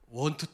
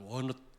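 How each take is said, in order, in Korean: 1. 두 단어를 각각 따로, 또박또박 발음합니다. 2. 두 단어가 이어져 하나의 줄어든 소리가 됩니다. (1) "이렇게 안 하거든" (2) "막 이렇게 하거든요. 연음이라고 그러는데"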